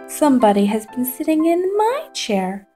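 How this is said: It is said in a little wee voice.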